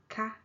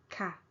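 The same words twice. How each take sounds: First: KA held high in pitch. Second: KA gliding down in pitch; falling tone. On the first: Teacher repeating the question particle for comparison, high tone. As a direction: keep KA up, no fall. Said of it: "high tone". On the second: Teacher repeating the statement particle for comparison, falling tone. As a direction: drop the pitch through KA. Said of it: "okay, falling tone". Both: Shown as a demonstration.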